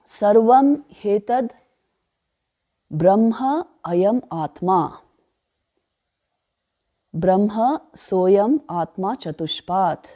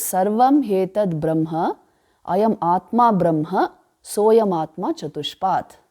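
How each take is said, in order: First: Slow recital, breaking after "Sarvam hetad" and again after "Brahma ayam atma"; measured reading, "Brahma" grouped with the words after it; word-by-word recitation. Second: Slow recital, "Sarvam hetad Brahma" as one phrase, then a pause; "ayam atma Brahma" joined up, "soyam atma chatushpat" following as its own phrase; regrouped mantra reading. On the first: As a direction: recite slowly with long pauses, "Brahma" starting each new phrase. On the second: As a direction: read slowly, closing each phrase on "Brahma" before going on.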